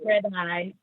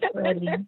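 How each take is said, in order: First: The name ends with an "eye" sound. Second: The name ends with an "ee" sound. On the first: Others misread the name. The speaker calls it wrong. "I still get Fred Eye" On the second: This is the intended name. The speaker calls it right. "It's like it's Freddie"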